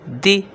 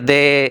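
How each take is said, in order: First: The vowel is a high 'ee' sound. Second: The vowel is a mid 'ay' sound. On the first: The speaker calls it right. "तो इसको पढ़ेंगे दी दी" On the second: The speaker calls it wrong. "मजहूल भी नहीं पढ़ना, यानी जाहिलों की तरह दाल ज़ेर दे, ये गलत है"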